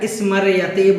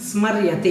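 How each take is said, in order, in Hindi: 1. र और य के बीच एक स्वर जोड़ा जाता है। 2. र और य मिलकर एक संयुक्त समूह बनाते हैं। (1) "लोग कुछ इसको गलत तरीके से बोल देते हैं" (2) "इस प्रकार से इसका उच्चारण करना है"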